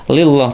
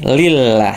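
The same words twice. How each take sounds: First: The L sound is heavy and dark. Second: The L sound is light and thin. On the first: The speaker calls it wrong. "tidak lillah" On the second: The speaker calls it right. "kalau yang ini baru lamnya tipis"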